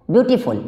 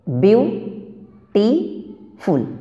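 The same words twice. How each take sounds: First: Said in the usual way. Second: beautiful very slowly, as view, टी, फुल with long pauses; beautiful syllable by syllable, rising on the first two, falling on the last; broken into syllables. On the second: Shown as a demonstration. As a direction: break beautiful into three separate pieces. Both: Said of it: "ये खुद टूटते चलता है".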